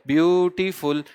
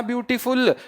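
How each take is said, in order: First: ब्यूटीफुल drawn out in three parts, ब्यू-टी-फुल; teacher sounding out ब्यूटीफुल as ब्यू, टी, फुल; broken into syllables. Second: Said in the usual way. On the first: Shown as a demonstration. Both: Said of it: "ब्यूटीफुल को अगर आप break करेंगे".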